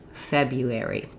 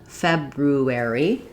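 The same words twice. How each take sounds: First: The first R is replaced by a Y sound. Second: Both R sounds are pronounced, including the first one. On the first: "change this first R to a Y sound" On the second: "we can pronounce it like it's spelled"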